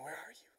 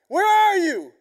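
First: It is said gently and tenderly. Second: It is shouted angrily.

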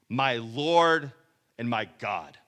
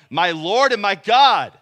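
First: It is said plainly, without exclamation. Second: It is said as an excited exclamation.

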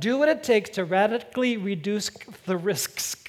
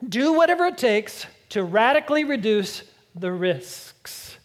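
First: It is said quickly, words running together. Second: It is said at a normal, careful speed.

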